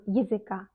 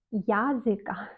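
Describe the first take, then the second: First: "языка" starting ye, ye-zy-KA; reduced unstressed vowel. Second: "языка" with a clear open ya, ya-zy-KA; wrong full vowel. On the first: Teacher correcting the mistake, "языка" as yezyka. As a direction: shrink the ya in "языка" to ye. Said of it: "Non, языка". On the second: Teacher showing the mistake, "языка" as yazyka. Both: Shown as a demonstration.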